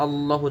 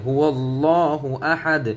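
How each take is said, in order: First: "আল্লাহু" quick, starting on bare a; mistaken plain reading. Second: "হু আল্লাহু" slowly chanted as huwal-laahu; correct linked recitation. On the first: Teacher shows what to avoid, "আল্লাহু" quick with bare a. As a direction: say "আল্লাহু" short as allahu, no w glide. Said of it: "যেন না হয়ে যায়". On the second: Teacher corrects learners, "হু আল্লাহু" recited slowly as huwallaahu. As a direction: stretch "হু আল্লাহু", gliding through w. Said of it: "আল্লাহু যেন না হয়ে যায়". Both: Shown as a demonstration.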